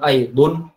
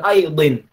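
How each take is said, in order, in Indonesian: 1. Kata aidan diakhiri dengan vokal u. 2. Kata aidan diakhiri dengan vokal i. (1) "bukan aidun" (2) "bukan aidin"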